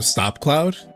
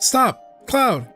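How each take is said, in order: First: Stop and Cloud run together without pause. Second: A pause separates stop from Cloud. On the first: Someone else is being told to stop Cloud. "saying to stop Cloud" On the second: Cloud is being asked to stop. "saying like stop to Cloud"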